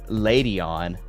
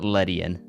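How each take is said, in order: First: The first syllable sounds like lay. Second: The first syllable does not sound like lay. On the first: "I guess it's like lay, like Spanish" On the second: "I pronounce it Ledian"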